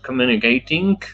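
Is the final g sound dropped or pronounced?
pronounced. The word ends with a full g sound. "Not communicating"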